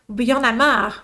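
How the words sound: It is said in a frustrated, annoyed tone. The speaker is annoyed about the situation. "the first one, you're kind of frustrated about it"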